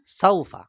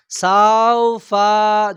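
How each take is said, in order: First: "সাউফা" said short, no drawn vowel; clean, quick "সাউফা" with no stretch; the right way: short "সাউফা"; correct saufa. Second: "সাউফা" with the first syllable wrongly stretched; wrong saufa. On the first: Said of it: "তাই শুদ্ধ কি?". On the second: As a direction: show the error: pull "সাউ" in "সাউফা" long. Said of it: "ভুল হবে, শব্দটা অশুদ্ধ হবে". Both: Shown as a demonstration.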